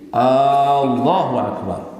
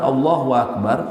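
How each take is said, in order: First: The opening vowel of Allahu is drawn out long. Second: The opening vowel of Allahu is short.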